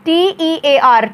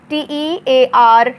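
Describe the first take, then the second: No difference in how they are said.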